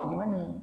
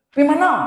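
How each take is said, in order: First: It is said softly and gently. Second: It is said harshly, as if angry. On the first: A polite question about where someone is going. "tetap lembut bahasa" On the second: It sounds like the speaker is scolding the listener. "dia ada intonasi dia. Macam nak marah kita"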